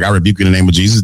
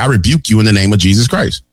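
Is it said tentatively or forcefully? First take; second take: tentatively; forcefully. First: It is said tentatively, without conviction. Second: It is said forcefully, with conviction.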